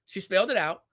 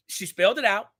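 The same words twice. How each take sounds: The two takes are said the same way.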